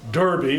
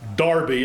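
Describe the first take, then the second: First: The first vowel sounds like 'dur'. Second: The first vowel sounds like 'dar'. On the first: "some will call it Derby" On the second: "some will call it Darby and be reproved for it"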